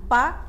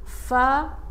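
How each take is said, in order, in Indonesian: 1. Suku kata ini dimulai dengan bunyi 'p'. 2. Suku kata ini dimulai dengan bunyi 'f'. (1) "bukan pa" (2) "Fa bukan pa ya"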